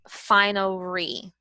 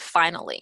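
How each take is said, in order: First: The middle consonant is an R sound. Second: The middle consonant is an L sound. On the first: The speaker calls it wrong. "it may come out as finery with an R" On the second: The speaker calls it right. "the L sound"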